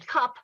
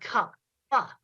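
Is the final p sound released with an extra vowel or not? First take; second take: not; released. First: The final p is short and unreleased. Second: The final p is released with an extra vowel. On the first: "switched back and forth between saying cup and cup pa" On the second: "Stretch out and enunciate the um, the consonants"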